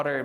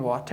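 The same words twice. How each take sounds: First: WATER with the T tapped like D; quick American tap in WATER; flap T. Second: WATER with a clear full T; hard T. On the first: Learner puzzled by foreigners' word, WATER with flapped T. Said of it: "این چه قسم water میگه". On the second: Learner's textbook word, WATER with hard T. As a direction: pronounce the T in WATER as written. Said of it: "ما خواندیم". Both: Shown as a demonstration.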